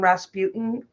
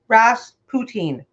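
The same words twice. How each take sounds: First: The ending does not sound like 'poutine'. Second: The ending sounds like 'poutine'. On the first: The speaker calls it wrong. "I grew up my whole life calling him Rasputin" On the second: The speaker calls it right. "If you know what poutine is, Rasputin"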